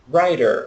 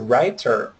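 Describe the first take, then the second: First: The middle t is a quick flap, like r. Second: The middle t is a clear t sound. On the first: This is the American pronunciation. "Lembra que o T entre vogais vira um R" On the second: This is the British pronunciation. "também está correto. Seria mais voltado para o inglês britânico"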